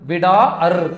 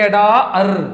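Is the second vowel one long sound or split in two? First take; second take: split; split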